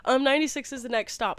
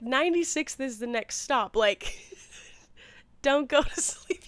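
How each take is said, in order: First: Quick, polite retold answer; what she actually said, brisk and polite; polite quick reply. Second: A mock-blunt warning she only wished she'd said; imagined blunt comeback; blunt pretend reply. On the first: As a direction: rush it out politely. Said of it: "but I was like". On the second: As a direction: tell him straight, half joking. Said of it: "You know, I didn't say that".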